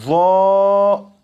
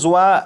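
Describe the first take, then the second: First: The vowel is a plain long 'aa'. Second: The vowel glides from 'u' to 'a'. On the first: The speaker calls it right. "बल्कि इसे पढ़ेंगे" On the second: The speaker calls it wrong. "जोए या जुआ नहीं पढ़ेंगे"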